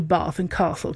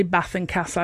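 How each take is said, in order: First: BATH and CASTLE with long "ah", as in "father"; posh long A. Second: BATH and CASTLE with short flat northern A, as in "cat"; short-vowel northern Bath and Castle. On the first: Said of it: "'cause that's posh". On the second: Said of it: "So I say Bath and Castle". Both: Shown as a demonstration.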